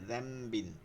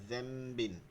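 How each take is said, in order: First: The word begins with a 'dh' sound. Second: The word begins with a 'dh' sound.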